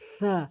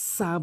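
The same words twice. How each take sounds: First: The first consonant is a soft th sound. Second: The first consonant is a hissing s sound. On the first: The speaker calls it right. "সঠিক উচ্চারণ হচ্ছে সা, অর্থাৎ জিব্বার আগা এবং সামনের দুটি দাঁতের আগা।" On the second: The speaker calls it wrong. "এটি ভুল উচ্চারণ।"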